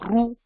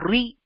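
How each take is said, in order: First: The sound is r followed by an u vowel. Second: The sound is r followed by an i vowel. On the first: "which is not the right way to pronounce this" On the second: "which is not the right way to pronounce this"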